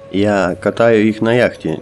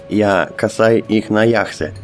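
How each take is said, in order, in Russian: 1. Глагол произносится с отчётливым звуком t. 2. Глагол произносится со звуком s. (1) "пояснил турок" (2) "но вышло"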